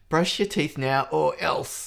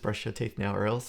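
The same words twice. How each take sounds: First: It is said in an escalated, angry way. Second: It is said in a plainer, calmer way.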